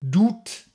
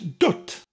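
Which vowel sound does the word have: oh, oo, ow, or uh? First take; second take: oo; uh. First: The vowel sounds like oo. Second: The vowel sounds like uh. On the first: The speaker calls it wrong. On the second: The speaker calls it right.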